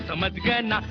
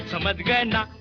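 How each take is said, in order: Both takes have the same delivery.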